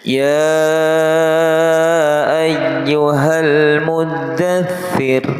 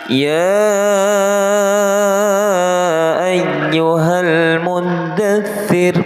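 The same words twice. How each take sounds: First: The phrase starts on a low, falling pitch. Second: The phrase starts with a rising, high pitch. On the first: The speaker calls it right. "diawali dengan nada rendah dulu" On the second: The speaker calls it wrong. "Kalau itu nada naik"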